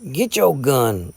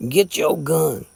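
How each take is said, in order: First: Slow, mildly furious demand. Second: Slow, pressing mild fury; furious repeat. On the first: Jason challenges Gray to fight, slow mild fury. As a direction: bite off each word in rage. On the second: Jason repeats his challenge to Gray, slow mild fury. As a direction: hammer the demand again. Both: A narrator's reading. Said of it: "was the furious answer".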